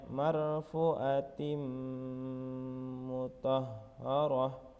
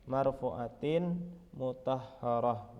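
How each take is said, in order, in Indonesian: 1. Bunyi n menyatu ke m yang mengikutinya. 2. Bunyi n tetap terpisah sebelum m. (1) "jadi membacanya" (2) "Bukan dibaca"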